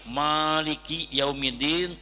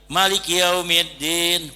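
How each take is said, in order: First: The first vowel of Maliki is drawn out long. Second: The first vowel of Maliki is kept short. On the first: He is the owner of the Day of Judgement. "make alif" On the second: He is the king ruling on the Day of Judgement. "kumaha mun teu make alif, maliki yaumiddin ponok"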